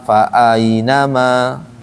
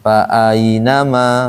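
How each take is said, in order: No difference in how they are said.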